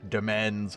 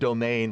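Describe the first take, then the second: First: The word sounds like 'demens'. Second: The word sounds like 'domain'. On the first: "I'm still calling it Demens because that sounds cool in fantasy" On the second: "which is apparently pronounced domain"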